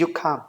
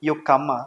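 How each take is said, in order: First: The ending is cut short, in a neutral accent. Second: The ending is dragged out, Indian English style. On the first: The speaker calls it right. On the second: The speaker calls it wrong. "Indian English"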